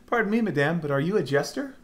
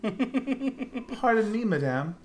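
First: Put-on higher courtly girl voice; princess voice. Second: High, slow, delicate princess; drawn-out courtly lady's greeting; dainty princess voice. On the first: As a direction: ask like a polite young princess. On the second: Acted. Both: Reading heroine line in voice.

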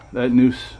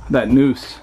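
The two takes are said the same way.

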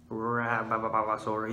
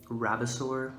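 First: Rabosaur stretched very slow, syllable by syllable; drawn-out name. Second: Said in the usual way. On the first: Shown as a demonstration. Naming the rabbit dinosaur for viewers, Rabosaur drawn out slow. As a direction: savour Rabosaur slowly like a grand title. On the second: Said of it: "Rabosaur, you know".

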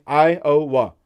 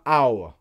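First: "Iowa" in three clear syllables, EYE-oh-wuh; his own Iowa. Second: "Iowa" collapsed to two syllables, AH-uh; the wrong Iowa. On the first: Showing viewers his three-syllable Iowa, careful. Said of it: "Three syllables". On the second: Contrasting the viewers' two-syllable Iowa, dismissive. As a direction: say "Iowa" as a quick two-beat AH-uh. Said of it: "Not Iowa". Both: Shown as a demonstration.

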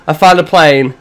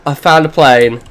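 Both takes have the same delivery.

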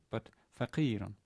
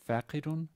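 First: Faqirun with the stress on the long qi; penultimate stress. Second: Faqirun stressed on the first syllable fa, said higher; wrong stress. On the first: Teacher giving the right stress on faqirun. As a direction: land on qi in faqirun and let it fall. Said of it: "Stress on the penultimate syllable". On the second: Teacher showing the wrong stress on faqirun. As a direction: put the weight on fa in faqirun. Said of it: "hence, it's not fa". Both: Shown as a demonstration.

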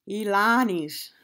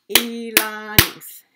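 First: Said in the usual way. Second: Elanis in three loud beats, E-la-nis; syllable by syllable. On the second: Shown as a demonstration. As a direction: punch out each syllable of Elanis. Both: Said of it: "how many parts a word can be broken into".

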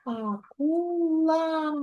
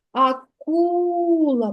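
First: Акула split into slow syllables а-ку-ла; teacher sounding out Акула slowly in syllables. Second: Акула said very slowly, leaning on the second syllable ку; teacher drawing out Акула to mark the stressed ку; stressed syllable shown. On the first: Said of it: "промовляй слово". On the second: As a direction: stretch Акула to show the stress falls on ку. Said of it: "Рисочкою ми покладемо на другий склад". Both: Shown as a demonstration.

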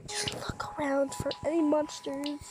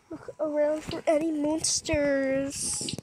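First: Whispered. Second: Said in the usual way. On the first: Real, not acted. Sneaking, hushed.

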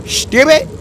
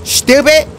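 The two takes are said the same way.

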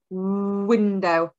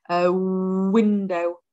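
First: Said in the usual way. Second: "window" said slowly, the opening w drawn out and rounded; stretched phonics word. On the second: Shown as a demonstration. Teacher to children, slowly drawing out the w in "window". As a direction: sound out "window" slowly, leaning on the w. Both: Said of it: "Is that our z for window or our w".

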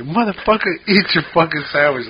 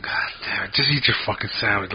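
First: Higher-pitched mock snap at a picky friend; retold angry outburst. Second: Under-the-breath grumble, softer; half-whispered irritated curse, kept to yourself; retold muttered anger. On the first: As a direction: replay the moment you lost patience, pitched up. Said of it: "I was getting all pissed off at him". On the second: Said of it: "It pissed me the fuck off".

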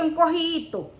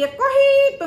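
First: Said in the usual way. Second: Encojito pitched sharply high and loud, stretched out; "encojito" said high and tight, mocking; squeezed word. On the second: Shown as a demonstration. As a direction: squeak "encojito" up high like something shrunk. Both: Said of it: "él parecía un tutti".

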